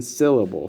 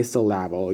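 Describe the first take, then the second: First: Said in the usual way. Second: "syllable" as sil-LAB-le; wrong stress. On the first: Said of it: "You have to say emphasis and syllable". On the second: Shown as a demonstration. Teacher showing what you can't say, "syllable" with misplaced middle stress. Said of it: "you can't say syllable".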